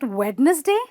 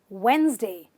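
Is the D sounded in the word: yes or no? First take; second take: yes; no. First: The D is sounded, giving three syllables. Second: The D is silent, giving two syllables. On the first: The speaker calls it wrong. "you don't have to pronounce the D" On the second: The speaker calls it right. "This word is simply said in two syllables"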